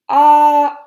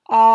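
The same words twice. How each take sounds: First: It is said at a high pitch. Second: It is said at a lower pitch.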